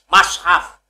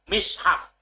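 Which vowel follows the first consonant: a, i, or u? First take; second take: a; i. First: The first vowel is a. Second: The first vowel is i. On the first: "fathai mim" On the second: "kasroe mim"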